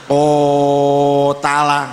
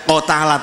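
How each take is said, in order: First: The first vowel is stretched far too long. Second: The first vowel is clipped short. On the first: "jangan terlalu panjang, jangan ko tala" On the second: "tidak ko tala"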